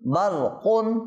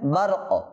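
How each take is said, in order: First: The word ends with an un sound. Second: The word ends on a bare k sound. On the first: The reading continues past this word. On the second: The reader stops on this word.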